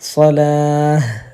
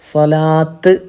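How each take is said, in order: First: The word ends with an h sound. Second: The word ends with a t sound. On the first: The speaker calls it right. "സ്വലാഹ് എന്ന ശബ്ദമാണ് ഉണ്ടാവേണ്ടത്" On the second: The speaker calls it wrong. "സ്വലാത്ത് എന്ന് പറഞ്ഞല്ല നിർത്ത"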